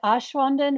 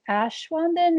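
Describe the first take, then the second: First: The first vowel is a broad 'ah', like 'osh'. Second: The first syllable rhymes with 'cash'. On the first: This is closer to the Swiss way of saying it. "I used to say it" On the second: This helps people guess the spelling correctly. "if I just say Ash"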